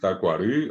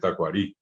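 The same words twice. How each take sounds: First: The final vowel is the central Guarani vowel. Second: The final vowel is a plain Spanish i. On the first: This is the original Guarani form. "en vez de decir tacuarí" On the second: This is the form adapted to Spanish. "hoy hay gente que dice tacuarí"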